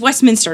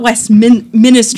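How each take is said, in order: First: The word has three syllables, with no extra vowel. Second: The word has four syllables, with an extra vowel. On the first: The speaker calls it right. "It doesn't have that second eye" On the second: The speaker calls it wrong. "not Westminster"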